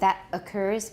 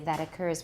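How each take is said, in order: First: The t is a clear t, not linked. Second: The t is a tap linking the words. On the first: The speaker calls it wrong. "Instead of saying that occurs" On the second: The speaker calls it right. "we'll say that occurs. We're going to link it with a tap"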